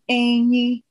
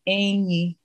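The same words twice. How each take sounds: First: Said with the tone pattern meaning elephant. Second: Said with the tone pattern meaning friend. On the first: It means elephant. "which is elephant" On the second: It means friend. "which is friend"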